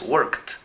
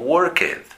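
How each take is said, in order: First: The ending is a short 't' sound. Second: The ending is an extra 'id' syllable. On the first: The speaker calls it right. "donde la pronunciación de la ed es simplemente t" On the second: The speaker calls it wrong. "muchos lo pronuncian como worked. Y se escucha muy mal"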